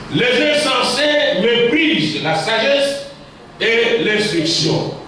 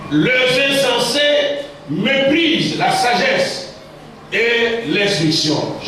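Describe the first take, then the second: The two takes are said the same way.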